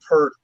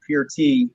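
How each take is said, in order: First: PEART said to rhyme with "hurt"; common mispronunciation. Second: Pearty said as "PEER-t", with a long "ee"; correct name pronunciation. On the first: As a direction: say Peart with an "ur" vowel, like "Pert". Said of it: "as we all call him [name]". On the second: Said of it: "his last name is actually pronounced". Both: Shown as a demonstration.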